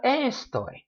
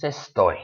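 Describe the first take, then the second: First: ES-toy, first syllable high and drawn out; stress on first syllable. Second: Estoy stressed on TOY; stress on last syllable. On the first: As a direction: wrongly punch the ES of estoy. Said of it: "it's not estoy". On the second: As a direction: land on the end, es-TOY. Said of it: "The stress goes on that last syllable". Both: Shown as a demonstration.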